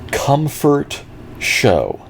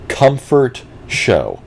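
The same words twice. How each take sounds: First: It is said quietly. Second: It is said loudly.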